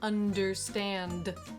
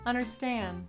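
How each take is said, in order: First: The D sound after N is pronounced. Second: The D sound after N is dropped. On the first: The speaker calls it wrong. "Instead of understand" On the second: The speaker calls it right. "I'm just saying understand"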